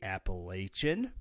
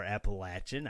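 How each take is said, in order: First: "Appalachian" said app-uh-LAY-shun, with a long a and an sh sound. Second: "Appalachian" said app-uh-LATCH-un, with a short a and a ch sound. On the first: Host contrasting two ways Missourians say the name, with a long a and sh. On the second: Host contrasting two ways Missourians say the name, with a short a and ch. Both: Shown as a demonstration. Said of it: "We could be Appalachian or Appalachian".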